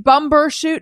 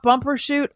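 First: The middle consonant is a 'b' sound. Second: The middle consonant is a 'p' sound. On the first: The speaker calls it right. "It's Bumbershoot" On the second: The speaker calls it wrong. "not Bumbershoot"

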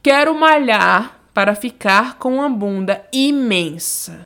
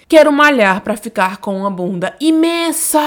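First: The last word is said at normal volume. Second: The last word is shouted loudly.

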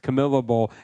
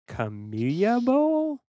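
First: Camilla is pronounced with an English-sounding pronunciation. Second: Camilla is pronounced with a Spanish-sounding pronunciation. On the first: The speaker calls it right. "My bad" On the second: The speaker calls it wrong. "I was pronouncing it like it was Spanish"

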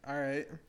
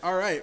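First: It is said in a flat, low-energy voice. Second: It is said in a lively, high-energy voice. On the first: The speaker calls it wrong. "You don't sound excited" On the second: The speaker calls it right. "Let me sound more excited"

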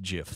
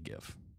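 First: It begins with a soft J sound. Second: It begins with a hard G sound. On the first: This is the officially intended pronunciation. "It's pronounced GIF though. ... Why don't you just put a J then?" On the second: This is the speaker's own habit. "I say GIF"

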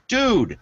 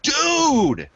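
First: It is said flatly, without excitement. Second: It is said loudly, with excitement.

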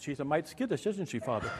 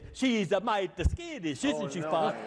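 First: The line is spoken in a natural, relaxed way. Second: Every consonant and vowel is pronounced distinctly. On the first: The speaker calls it wrong. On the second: The speaker calls it right.

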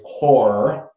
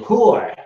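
First: It is said in a Chicago accent. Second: It is said in a New York accent.

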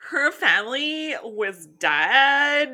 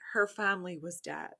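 First: It is read in a Valley Girl voice. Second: It is read in a sad tone.

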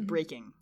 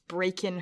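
First: The word ends with a full ng sound. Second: The word ends with a plain n sound. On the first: "as opposed to" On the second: "there is an apostrophe written instead of a G"

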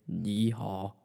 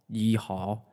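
No difference in how they are said.

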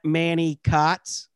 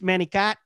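First: It is said slowly and clearly. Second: It is said quickly, run together.

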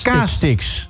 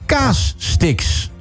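First: The two parts share one single s sound. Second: The s sound is doubled between the two parts. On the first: The speaker calls it wrong. "Maar je zegt kaastix" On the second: The speaker calls it right. "Het zijn kaas, spatie, stix"

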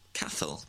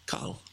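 First: The middle is said with a 'th' sound. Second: The middle is said with a plain 'h' sound. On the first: The speaker calls it wrong. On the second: The speaker calls it right.

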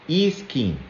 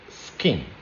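First: An extra vowel sound comes before the s. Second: The word starts directly with the s sound. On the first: The speaker calls it wrong. "We tend to put a vowel sound before. So we say e-skin, but it's not e-skin" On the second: The speaker calls it right. "it's skin"

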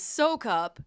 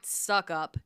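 First: The first vowel is long, like 'soak'. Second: The first vowel is short, like 'suck'. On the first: The speaker calls it right. "It is Soak Up. That is the proper pronunciation of it" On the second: The speaker calls it wrong. "my last name is not Suck Up"

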